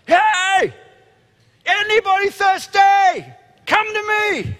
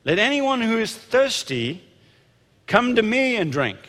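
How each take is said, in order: First: Full high-pitched yell, long drawn-out words; shouting to a crowd. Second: Raised voice. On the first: Acted. Jesus shouting over the packed festival crowd from a high place. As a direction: holler it at the top of your voice. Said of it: "he shouts to the crowd". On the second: A narrator's reading. Preacher reading Jesus' call to the festival crowd, raised voice. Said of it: "said in a loud voice".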